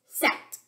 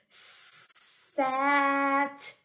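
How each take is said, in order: First: The word is said fast, sounds run together. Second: The word is said slowly, sounds stretched. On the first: "Say it fast" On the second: "say a word slowly without stopping between the sounds"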